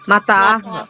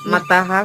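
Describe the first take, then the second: First: The second syllable has a long vowel. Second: The second syllable has a short vowel. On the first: The speaker calls it right. "తాకాకారం ఉంది" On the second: The speaker calls it wrong. "మతహ కాదు"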